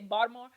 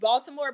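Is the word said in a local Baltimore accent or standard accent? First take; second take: local; standard. First: It is said in a thick Baltimore accent. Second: It is said in a standard accent. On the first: This is how local people say the name. "but they say Baltimore" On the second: This is how the name is normally said. "It's Baltimore"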